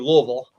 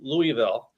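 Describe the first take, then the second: First: It is said in a Southern US accent. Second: It is said in a Northern US accent. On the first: "now it's got to be Louisville" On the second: "us Northerners we call it Louisville"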